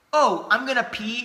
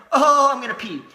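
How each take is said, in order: First: Said in the usual way. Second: Mock dramatic. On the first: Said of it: "I legitimately think at this point". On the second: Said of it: "It's like".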